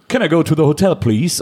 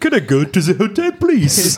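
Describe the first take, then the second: First: It is said in a plain English accent. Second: It is said with a put-on French-sounding accent.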